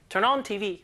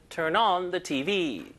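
First: Said in the usual way. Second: Slow, turn on the T V with the kept; correct version with the. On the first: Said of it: "하지 말고". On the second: Shown as a demonstration. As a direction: say the, slowly and clearly. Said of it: "하지 말고 turn on the T V".

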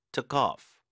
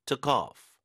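First: "Took off" with the weight on "off", linked smoothly; stress on off. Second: "Took off" with the weight on "Took", falling after; stress on took. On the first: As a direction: glide into "off" and stress it. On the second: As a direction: lean on "Took" and let "off" drop. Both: Shown as a demonstration. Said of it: "이렇게 강세 주시면 되겠습니다".

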